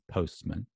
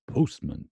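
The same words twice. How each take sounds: First: It is said in a standard British accent. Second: It is said in an American accent, rounder O. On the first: "standard U K is postman" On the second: "Standard U S is postman"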